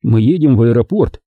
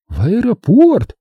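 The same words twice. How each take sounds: First: Said in the usual way. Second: High, slow, astonished echo; shocked cry. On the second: A narrator's reading. Startled passengers echo the destination in chorus, shocked. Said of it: "закричали они хором".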